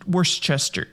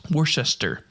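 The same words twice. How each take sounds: First: Worcester stumbled as "worst-chester"; stumbled pronunciation. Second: Worcester retried as "wor-shester"; corrected attempt. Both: Real, not acted. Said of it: "Oh my God".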